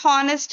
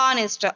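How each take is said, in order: First: The word begins with an audible h sound. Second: The word begins directly with a vowel sound. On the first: The speaker calls it wrong. "Not హానెస్ట్ అండి" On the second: The speaker calls it right. "We have to pronounce it as ఆనెస్ట్"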